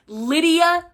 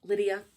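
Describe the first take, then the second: First: Excited announcement. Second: Soft repeat. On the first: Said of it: "announces favorite character". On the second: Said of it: "repeats name quietly". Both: Real, not acted.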